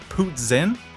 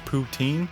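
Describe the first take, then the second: First: It is said with a hard S or Z sound. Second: It is said without an S or Z sound. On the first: This is the pronunciation the restaurant staff call correct. "trying to sneak in a hard S or a Z in there" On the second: This is the common everyday pronunciation. "I've always pronounced it as poutine"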